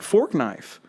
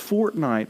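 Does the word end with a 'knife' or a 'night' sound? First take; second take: knife; night. First: It is said as fork-knife, ending in f. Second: It is said as fort-night, ending in t. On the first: The speaker calls it wrong. "I'm saying it right, Fork Knife" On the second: The speaker calls it right. "no, it's Fortnite"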